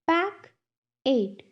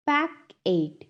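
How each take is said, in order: First: "Pack it" as two separate beats; long pause between "Pack" and "it"; syllable by syllable. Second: Said in the usual way. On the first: Shown as a demonstration. Teacher has class repeat, "Pack it" broken in two. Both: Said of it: "टू syllables में divide".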